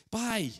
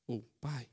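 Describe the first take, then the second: First: A confident "pai", lifted up; firmer try at pai. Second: "pai" low and softer, almost to himself; a timid low "pai"; softer try at pai. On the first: ("pai" mais alto e firme) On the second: ("pai" baixo e tímido) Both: Retold or imitated. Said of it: "ele pensando na entonação".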